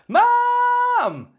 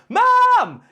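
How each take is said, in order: First: The shout is held out longer. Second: It is a short, healthy shout.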